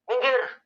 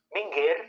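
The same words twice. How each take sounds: First: "minggir" pitched sharply high; high-pitched spoken "minggir"; spoken intonation. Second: "minggir" softer, moderately raised in pitch; soft, less emphatic "minggir"; contrasting intonation. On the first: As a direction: say "minggir" as an exclamation, voice leaping up. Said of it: "Tapi kalau diucapkan". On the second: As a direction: say "minggir" gently, without exclaiming. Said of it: "itu beda gitu. Dengan". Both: Shown as a demonstration.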